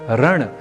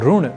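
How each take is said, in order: First: The first syllable is said as ra. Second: The first syllable is said as ru. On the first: "र या रू के रूप में उच्चारित करना क्यों गलत है" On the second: "र या रू के रूप में उच्चारित करना क्यों गलत है"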